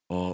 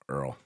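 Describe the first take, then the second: First: The word is said with an 'aw' vowel. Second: The word is said with an 'er' vowel. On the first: This is how people in Ohio say it. "People in Ohio say all" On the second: This is how a Kentucky relative says it. "my grandmother from Kentucky, that's how she said oil too"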